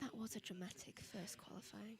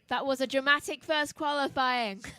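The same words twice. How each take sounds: First: It is said at a quiet, low volume. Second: It is said at a loud, projected volume. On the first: "You have to speak a bit louder" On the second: "That was me projecting my voice"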